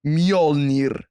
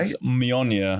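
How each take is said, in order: First: Mjolnir with a rolled R. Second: Slow Mjolnir without a rolled R; untrilled Mjolnir. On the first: Showing off the Nordic pronunciation of Mjolnir. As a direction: roll the R in Mjolnir, Nordic style. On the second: Admitting he can't roll the R in Mjolnir. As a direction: say Mjolnir slowly, R not rolled. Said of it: "I cannot pronounce it". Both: Shown as a demonstration.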